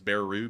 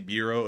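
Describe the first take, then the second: First: The word is said the way it is spelled. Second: The word is said the standard way.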